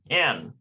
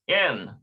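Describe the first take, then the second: First: The vowel sounds like 'ay'. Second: The same.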